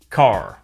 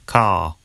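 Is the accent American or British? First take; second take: American; British. First: It is said in an American accent. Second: It is said in a British accent.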